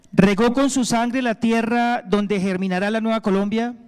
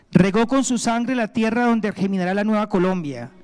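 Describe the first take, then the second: Both takes have the same delivery.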